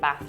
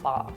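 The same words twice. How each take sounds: First: The word is said with a northern English vowel. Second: The word is said with a southern English vowel. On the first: "it's definitely northern because I say Bath" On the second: "not Bath"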